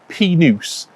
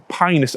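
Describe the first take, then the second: First: The first syllable does not sound like pine. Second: The first syllable sounds like the word pine. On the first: "an alternative Latin pronunciation" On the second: "Pinus, pine, it sort of makes sense"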